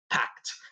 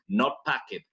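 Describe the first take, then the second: First: The -ed ending is a t sound. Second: The -ed ending is a separate syllable. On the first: The speaker calls it right. "la E no suena... como si fuera una T" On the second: The speaker calls it wrong. "no se pronuncia pakev"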